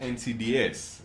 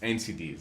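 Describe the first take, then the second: First: The final S is said as its own letter. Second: The final S is a plain plural ending. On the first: The speaker calls it wrong. "it's not N C D S, as a lot of people would pronounce them" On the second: The speaker calls it right. "it's N C Ds"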